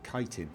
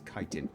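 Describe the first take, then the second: First: The word begins with a k sound. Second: The same.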